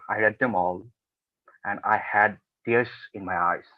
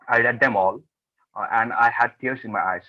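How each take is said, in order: First: It is said very slowly with a pause. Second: It is said at a quick, even pace.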